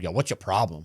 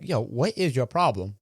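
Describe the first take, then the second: First: The question sounds confrontational and hostile. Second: The question sounds sincere and genuinely curious. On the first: The speaker is picking a fight. "he probably didn't take it that way" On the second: The speaker genuinely wants to know. "Because I wanted to know"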